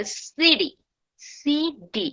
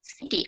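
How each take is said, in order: First: সিডি, city with a D-like tap; American flap T. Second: Said in the usual way. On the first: Shown as a demonstration. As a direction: stretch out সিডি with a soft D. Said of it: "তারা বলবে সিডি". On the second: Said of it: "আমরা বলি".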